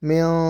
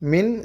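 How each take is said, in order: First: The n is hidden in the nose and prolonged. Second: The n is pronounced clearly without nasal hiding. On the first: "மியா என்று சொல்லி நாம் சற்று மூக்கில் மறைத்து ராகம் கொடுத்து" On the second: "மின் சிஜ் என்று படிப்பதை"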